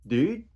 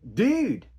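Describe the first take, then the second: First: It sounds questioning, asking what was said. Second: It sounds angry, like what the hell.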